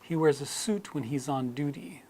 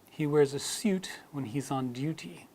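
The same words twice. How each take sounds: First: It is said in an American accent. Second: It is said in a British accent. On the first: "we've dropped the U sound in suit and duty in American English" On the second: "So in British English, that would sound more like"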